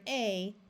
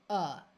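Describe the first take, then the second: First: The word is said with a full vowel. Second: The word is said with a reduced vowel. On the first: "the word a" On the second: "when we are speaking or reading out loud, often the word a turns into the word a"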